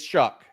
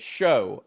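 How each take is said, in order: First: The name rhymes with 'duck'. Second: The name rhymes with 'go'. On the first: The speaker calls it right. "but it's, it's Shuck" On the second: The speaker calls it wrong. "it looks like you should say it show"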